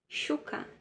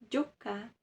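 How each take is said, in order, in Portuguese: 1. O primeiro som é um som de sh. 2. O primeiro som é um som de dj. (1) "na Argentina, som de S H" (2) "essa terceira possibilidade de ler também seria com som de D J"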